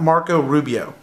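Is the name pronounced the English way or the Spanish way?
English. The name is pronounced with English sounds. The speaker calls it wrong.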